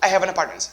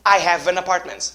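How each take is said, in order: First: The sentence is said at a faster pace. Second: The sentence is said at a slower pace.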